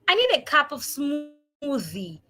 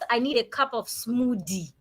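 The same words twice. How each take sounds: First: Smoothie has a voiced th sound in the middle. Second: Smoothie has a d sound in the middle. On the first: The speaker calls it right. "It is not a D sound, it is a the sound" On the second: The speaker calls it wrong.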